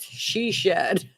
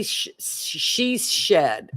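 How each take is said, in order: First: "She shed" said cleanly, each "sh" distinct; careful retry. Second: Slow, tripping over "she shed"; stumbling tongue twister. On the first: Retrying the tongue twister from the comment, carefully. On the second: Reading a viewer comment aloud, trips over "she shed". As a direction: fumble the "sh" sounds of "she shed". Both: Shown as a demonstration. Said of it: "I can't say that fast".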